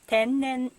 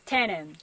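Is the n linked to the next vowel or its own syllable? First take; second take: separate; linked. First: The n is held as its own syllable. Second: The n runs into the following vowel. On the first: The speaker calls it right. "but 天然" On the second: The speaker calls it wrong. "It's not tennen"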